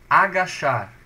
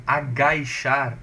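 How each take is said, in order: First: "Agachar" forte, com "a" puro antes do "ch"; sem ditongo. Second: "agachar" dito "a-gai-char", com "i" depois do "ga"; com ditongo inventado. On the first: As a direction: diga "Agachar" alto, sem "i" no "ga". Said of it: "o agachar não". ("Agachar" bem articulado, "a-ga-char") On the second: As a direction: enfie um "i" em "agachar", soando "agaichar". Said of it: "Porque teria um ditongo". ("agachar" com ditongo "ai" bem marcado na segunda sílaba) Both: Shown as a demonstration.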